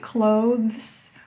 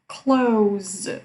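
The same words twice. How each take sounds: First: The word is said in its fuller form. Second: The word is said in its simpler form. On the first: "You can say it clothes" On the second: "or just clothes. It's easier"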